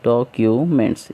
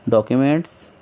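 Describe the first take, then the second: First: documents broken into three pieces; teacher counting out the syllables of documents. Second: Said in the usual way. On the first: Shown as a demonstration. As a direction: say documents as डॉ, Q, मेंट्स with gaps. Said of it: "इस तरीके से". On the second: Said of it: "syllable कैसा है इसमें?".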